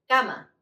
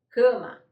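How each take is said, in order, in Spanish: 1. La primera A suena abierta y oral. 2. La primera A suena nasal. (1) "Van a decir cama" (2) "como decimos en portugués"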